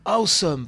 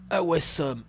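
First: "awesome" as AW-some, loud and higher; corrected English pronunciation. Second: "Awesome" mangled as a-WESS-om, three syllables; botched English pronunciation. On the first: Streamer correcting the trailer slogan, emphatic "awesome". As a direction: punch out "awesome" in two syllables, overdone English. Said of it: "Oh, mon superbe accent". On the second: Streamer reading a game trailer slogan, mispronounced "Awesome". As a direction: say "Awesome" French-style, sounding out the w and e. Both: Real, not acted.

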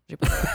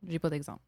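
First: Said in the usual way. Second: Quiet, trailing mutter; muttered to self. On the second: Real, not acted. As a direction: say it under your breath. (marmonné tout bas)

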